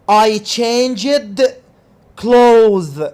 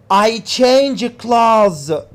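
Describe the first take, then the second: First: The final D of changed is pronounced. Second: The final D of changed is dropped.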